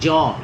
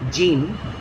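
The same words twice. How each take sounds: First: The name is said with a French pronunciation. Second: The name is said with an English pronunciation. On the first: The speaker calls it right. "it is actually Jean. It's a French pronunciation" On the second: The speaker calls it wrong. "It's not actually Jean"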